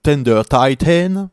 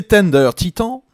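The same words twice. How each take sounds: First: "Tender Titan" said the English way, tender tai-tn, slowly; "Titan" with an English diphthong, ai-ten; English pronunciation. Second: "Tender Titan" said the French way, tɛndœʀ titɑ̃; "Tender Titan" with French vowels, stress on the end; French pronunciation. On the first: (prononciation anglaise appuyée de "Tender Titan", lentement) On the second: (prononciation à la française de "Tender Titan") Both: Shown as a demonstration. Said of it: "excusez-moi pour mon accent".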